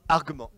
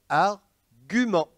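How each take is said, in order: First: The u after the g is silent. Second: The u after the g is sounded aloud. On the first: The speaker calls it wrong. "pas argument" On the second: The speaker calls it right. "on doit prononcer ainsi"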